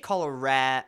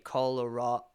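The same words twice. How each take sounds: First: The A in the word is fully pronounced. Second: The A in the word is reduced. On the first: This is the speaker's own way of saying it. "I say Colorado. I pronounce the A" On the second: This is how general English says it. "more generic English doesn't pronounce the A"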